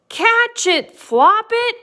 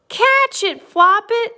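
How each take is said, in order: First: High, loud urgent call; acted crowd's cry for help; storybook shout. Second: High, loud playful cry; gleeful acted shout, no real laugh; merry storybook call. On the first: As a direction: shout up to the bunny. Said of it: "pointed up towards the egg and shouted". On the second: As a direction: call it out as amused friends. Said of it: "laughed his friends". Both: A narrator's reading.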